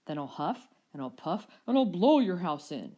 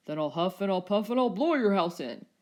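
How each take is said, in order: First: Loud threatening shout; Rex shouting. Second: Menacing Rex threat. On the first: Rex shouting back at the dinos, loud and threatening. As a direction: bellow the threat at the house. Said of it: "shouted back the Rex". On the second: Rex threatening the dinos through the door, loud and menacing. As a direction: threaten them like a big bully. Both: A narrator's reading.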